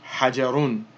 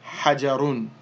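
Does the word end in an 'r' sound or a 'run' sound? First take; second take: run; run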